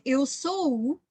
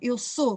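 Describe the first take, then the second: First: The O vowel is drawn out long. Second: The O vowel is of medium length. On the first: "no Porto, por exemplo, eles fazem ... fazem sempre os sons mais longos" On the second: "Eu faço um som médio no O"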